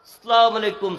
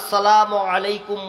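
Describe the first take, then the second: First: The greeting is said quickly and carelessly. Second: The greeting is said slowly, carefully and warmly. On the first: The greeter shows little respect. The speaker calls it wrong. "আর আমাদের মতো মানুষ সালাম দেয়" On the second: The greeter shows deep respect. The speaker calls it right. "কি উচ্চারণ, এত সুন্দর ভঙ্গিমা সালাম দেয় হুজুর"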